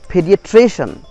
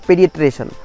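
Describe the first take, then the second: First: The stress falls on the syllable before -cian. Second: The stress falls on a different syllable. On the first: The speaker calls it right. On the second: The speaker calls it wrong.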